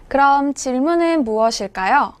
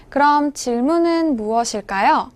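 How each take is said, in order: Both takes have the same delivery.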